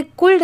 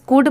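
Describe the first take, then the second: First: कुल्ड said as kuld with the l sounded; wrong pronunciation. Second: कुड said as kud with the l silent. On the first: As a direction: show the mistake by saying कुल्ड as "kuld". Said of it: "यहाँ पर एल letter silent है". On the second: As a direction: say कुड as "kud", no l sound at all. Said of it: "इसे कुल्ड नहीं पढ़ रहे हैं". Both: Shown as a demonstration.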